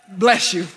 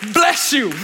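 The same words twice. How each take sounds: First: It is said in a kind, plain tone. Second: It is said in an angry, cursing tone.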